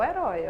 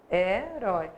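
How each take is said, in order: First: Said in the usual way. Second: "Herói" with a held first syllable, then "rói". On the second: Shown as a demonstration. Teacher showing the oxytone to students, "Herói" syllable by syllable. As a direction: stretch and separate the "he" and "rói" of "Herói". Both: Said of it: "vamos separar a sílaba".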